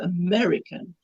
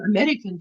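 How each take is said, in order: First: The R sound is rolled, American style. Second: The R sound is dropped, South African style. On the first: "to American, my my tongue has to do something" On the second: "now for me to go from American"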